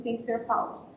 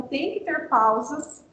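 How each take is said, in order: First: Said in the usual way. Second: "tem que ter pausas" asked slowly as a question; rhetorical question. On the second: Shown as a demonstration. Teacher quizzing teachers on shared reading, rhetorical question on "pausas". Asks, then answers own question.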